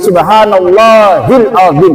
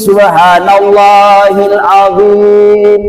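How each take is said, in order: First: The vowel in azim is kept short. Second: The vowel in azim is drawn out long. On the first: It would mean God is bone. The speaker calls it wrong. "Kalau tidak dipanjangkan itu" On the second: Glory be to God, the Most Great. The speaker calls it right.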